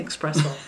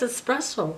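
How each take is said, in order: First: It begins with an 'ex' sound. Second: It begins with an 'es' sound. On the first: The speaker calls it wrong. "I was always saying espresso" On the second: The speaker calls it right. "And now it's espresso"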